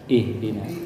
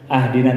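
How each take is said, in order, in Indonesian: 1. Kata itu diawali vokal i. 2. Kata itu diawali vokal a. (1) "si alif dibaca ide itu ih dina" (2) "Belum pernah ibu bapak mendengar imam memacana ah dina"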